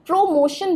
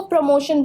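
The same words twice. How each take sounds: First: प्रमोशन split as "PRO-MOTION", full o; wrong pronunciation. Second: प्रमोशन with a weak "pruh" start; no stress on the first o of प्रमोशन; right pronunciation. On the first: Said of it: "ओ पे और मोशन पे ज़्यादा stress". (प्रमोशन का गलत उच्चारण, "प्रो" पर ज़ोर) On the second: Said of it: "आपको यहाँ पे स्ट्रेस नहीं देना है". (प्रमोशन का सही उच्चारण, हल्का "प्र") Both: Shown as a demonstration.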